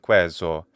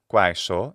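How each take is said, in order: First: It is said in the Italianate church way. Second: It is said in the classical Latin way. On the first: "for ecclesiastical pronunciation" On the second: "in classical pronunciation"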